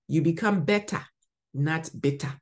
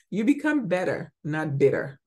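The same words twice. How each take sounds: First: It is spoken in a Ghanaian English accent. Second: It is spoken in an American English accent. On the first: "Let me say it in my Ghanaian accent" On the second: "Now let me go to the American"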